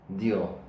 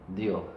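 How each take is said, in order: The two takes are said the same way.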